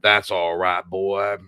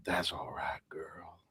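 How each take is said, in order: First: Soothing the horse. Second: Soft, low, whispered coo to a horse; sultry horse talk. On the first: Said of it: "how he talks to his horse". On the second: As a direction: murmur it like a seduction. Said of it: "talking like that". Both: Retold or imitated.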